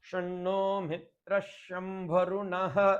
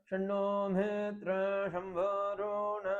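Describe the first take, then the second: First: The last word ends with a breathy h. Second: The last word ends without a breathy h. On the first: This is how South Indians recite it. "அந்த விசர்க்கத்தையும் சேர்த்து நம்ம சொல்றோம்" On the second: This is how North Indians recite it. "அந்த விசர்க்கம் விசர்ஜனம் பண்ணிடுவான்"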